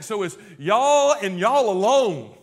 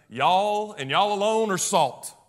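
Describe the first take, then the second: First: "y'all" pressed loud, "alone" drawn out falling; emphatic y'all. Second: Slow, "alone" stressed and falling; emphatic y'all. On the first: Preacher insisting the task is theirs alone, emphatic. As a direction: lean hard on "y'all" and "alone". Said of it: "And it's emphatic". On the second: Preacher restating the verse to the church, emphatic. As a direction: press "y'all" and land hard on "alone". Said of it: "repeats the emphatic y'all". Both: Shown as a demonstration.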